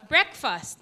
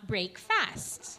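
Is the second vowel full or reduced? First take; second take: reduced; full. First: The second syllable has a reduced vowel. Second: The second syllable keeps a full vowel. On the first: The speaker calls it right. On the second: The speaker calls it wrong. "not break fast"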